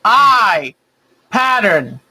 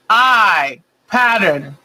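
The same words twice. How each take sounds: The two takes are said the same way.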